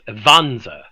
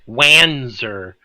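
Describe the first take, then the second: First: The name begins with a V sound. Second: The name begins with a W sound. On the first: The speaker calls it right. "W's are pronounced as V in German" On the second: The speaker calls it wrong. "anyone who says it's Wanzer, I'm going to stab you"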